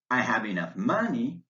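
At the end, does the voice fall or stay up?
stays up. The voice stays up on money. More is still to come. "you'll use pause intonation and say"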